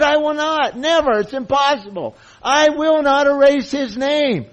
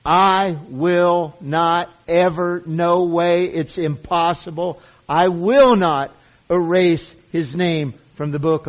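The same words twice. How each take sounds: First: Much higher and louder, I will not cried out; impassioned emphasis. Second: Slow, loud, every word of I will not hammered; emphatic promise. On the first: Preacher rebutting those who hear a threat, passionate high cry. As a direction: cry the promise out as if defending it. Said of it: "He just said". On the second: Preacher to the congregation, emphatic hammered delivery. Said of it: "I'm emphasizing what is being said". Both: Shown as a demonstration.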